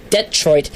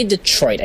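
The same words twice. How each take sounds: First: Detroit as DET-troit, front syllable emphasized; stress on DET. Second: Detroit as dih-TROIT, stress on the end; unstressed first syllable. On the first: Host showing his own version, Detroit as DET-troit. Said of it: "the det just needs to be, uh, more emphasized". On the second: Host showing the version he avoids, Detroit as dih-TROIT. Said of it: "I don't say Detroit". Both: Shown as a demonstration.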